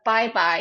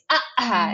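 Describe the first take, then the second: First: The consonants are made with the lips. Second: The consonants are replaced by throat stops. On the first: The speaker calls it right. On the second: The speaker calls it wrong.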